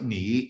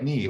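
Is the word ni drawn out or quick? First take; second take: drawn out; quick. First: A long, full dipping third tone. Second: A short, quick syllable without the full dip. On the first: This is the textbook form learners expect. "ni is supposed to be the third tone" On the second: This is the form actually heard in everyday speech. "or something quick"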